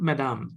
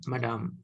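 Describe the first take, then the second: First: The d is pronounced hard and heavy. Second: The d is pronounced soft and light. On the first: The speaker calls it wrong. "Not madame, ... there is no hard sound" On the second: The speaker calls it right. "all soft sounds"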